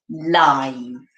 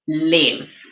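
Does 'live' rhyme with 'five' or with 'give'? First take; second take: five; give. First: The word rhymes with 'five', with a long vowel. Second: The word rhymes with 'give', with a short vowel. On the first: It is the adjective form of the word. The speaker calls it wrong. "word number one is going to be live" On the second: It is the verb form of the word. The speaker calls it right. "we are using the word as a verb"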